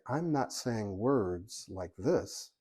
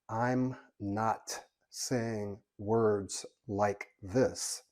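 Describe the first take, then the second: First: The words flow together naturally with clear endings. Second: Each word is sharply separated and over-articulated. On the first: The speaker calls it right. "But I can say" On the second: The speaker calls it wrong. "over articulating ... because that sounds strange"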